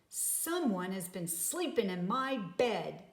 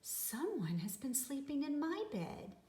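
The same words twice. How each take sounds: First: It is said in a great big voice. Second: It is said in a middle-sized voice.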